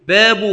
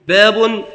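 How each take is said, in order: First: The word ends with a short 'u'. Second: The word ends with the sound 'un'. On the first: "وتركه" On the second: "التنوين"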